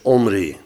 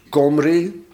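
First: The name starts directly with a vowel. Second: The name starts with a hard k sound. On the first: The first letter is left out. "Dus laten we hem gewoon weg" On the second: The first letter is given its hard reading. "als hij hard wordt uitgesproken"

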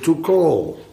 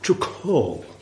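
First: The word is said plainly, without an h sound. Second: The word has a slight h sound inside it. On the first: The speaker calls it wrong. "Want dit was de Almeerse uitspraak" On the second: The speaker calls it right. "Er hoort een beetje een H tussen. To call. Zo moet dat"

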